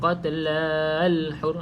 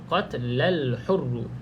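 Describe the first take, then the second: First: The vowel before the link is held long. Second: The vowel before the link is kept short. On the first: The speaker calls it wrong. "kita jangan panjang pula kalau sambung. Ha, kita tak baca" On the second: The speaker calls it right. "Kalau kita sambung, baca je biasa"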